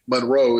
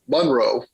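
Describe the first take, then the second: First: The name is pronounced the outsider way. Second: The name is pronounced the local way. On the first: This is how a non-local would say the name. The speaker calls it wrong. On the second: This is how residents say the name. The speaker calls it right.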